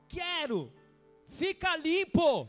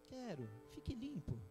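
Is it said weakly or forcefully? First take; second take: forcefully; weakly. First: It is said forcefully, as an exclamation. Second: It is said weakly, like a dying old man.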